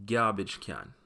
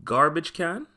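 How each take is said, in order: First: "garbage can" slowed, said as gyarbage kyan with Y glides; Patois gyarbage kyan. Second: Said in the usual way. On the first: Shown as a demonstration. Teacher giving learners the Patois "garbage can". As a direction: Jamaican "garbage can" with the Y sound. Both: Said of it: "becomes garbage can".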